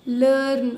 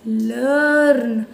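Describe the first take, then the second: First: Said in the usual way. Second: लर्न stretched very slowly with a falling end; drawn-out blend. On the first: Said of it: "sorry बेटा". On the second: Shown as a demonstration. Teacher finishing the blend लर्न for the children, slow. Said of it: "तो क्या बोलेंगे?".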